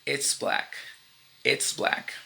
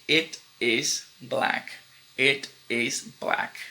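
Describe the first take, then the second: First: "it's" clipped into one syllable, its; contraction it's. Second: "It is black" said slowly, "it" and "is" apart; full form it is. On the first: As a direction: blend "it's" into one short sound. (contração "it's" numa sílaba) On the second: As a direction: lay out "it is" word by word. (forma completa "it is", devagar) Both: Shown as a demonstration.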